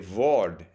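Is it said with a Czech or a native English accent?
Czech. It is said with a Czech accent.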